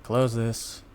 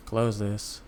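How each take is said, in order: Both takes have the same delivery.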